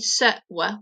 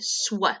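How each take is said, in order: First: The two sounds are said apart with a pause. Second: The two sounds are run together without pause. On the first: "Rather than saying s, w" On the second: "we can say sw"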